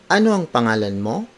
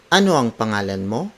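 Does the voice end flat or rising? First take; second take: rising; rising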